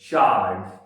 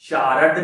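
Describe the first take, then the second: First: The r sound is only faintly pronounced. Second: The r sound is fully pronounced. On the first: The speaker calls it right. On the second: The speaker calls it wrong.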